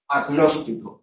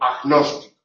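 First: The g is a g with slight friction. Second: The g is a harsh fricative like j. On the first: The speaker calls it right. "sino como una G con una pequeña fricción" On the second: The speaker calls it wrong. "no debe pronunciarse como velar fricativa, es decir, como J"

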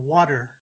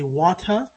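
First: The middle consonant sounds like a d. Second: The middle consonant is a clear t. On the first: "water with a D sound" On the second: "if I say water in RP English"

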